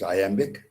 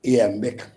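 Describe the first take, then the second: First: "iambic" begun with an eye sound; eye-AM-bik. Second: "iambic" begun with an ee sound; ee-AM-bik. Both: Shown as a demonstration. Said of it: "Some people pronounce iambic".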